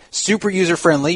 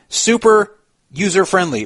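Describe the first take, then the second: First: It runs together, grouping 'super user' before 'friendly'. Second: A break after 'super' groups 'user-friendly' together. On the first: It sounds like the phrase 'super user'. The speaker calls it wrong. "Instead of saying super user friendly" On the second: The software is very easy to use. The speaker calls it right. "you say super user-friendly"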